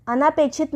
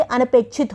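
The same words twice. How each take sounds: First: अनापेक्षित with long 'naa'; wrong long vowel. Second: अनपेक्षित with short 'na'; correct short vowel. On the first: Teacher rejecting a mistake, long 'naa' in अनापेक्षित. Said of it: "अनापेक्षित नहीं होता". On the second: Teacher giving correct form, short 'na' in अनपेक्षित. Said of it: "अनपेक्षित होता है ये". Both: Shown as a demonstration.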